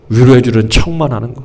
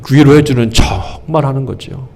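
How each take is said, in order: First: Said in the usual way. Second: 척 stretched out long; stress on 척. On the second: Real, not acted. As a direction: draw out the word 척 for emphasis. Key word drawn out, then repeated. (척을 길게 늘여 강조)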